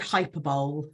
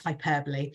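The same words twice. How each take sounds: First: The word is said in a misread way. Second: The word is said the everyday way. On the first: The speaker calls it wrong. "I also said hyperbole ... before I realised" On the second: The speaker calls it right. "before I realised it was hyperbole"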